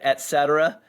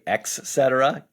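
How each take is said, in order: First: The first word is said as 'et'. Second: The first word is said as 'ex'. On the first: The speaker calls it right. "I say it et cetera" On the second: The speaker calls it wrong. "you would never say ex cetera"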